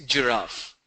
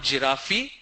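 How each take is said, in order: First: Said in the usual way. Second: "giraffe" wrongly ending in an ee sound; wrong pronunciation. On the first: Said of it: "it's giraffe". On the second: Shown as a demonstration. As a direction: say "giraffe" as ji-raf-ee. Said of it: "It's not giraffe".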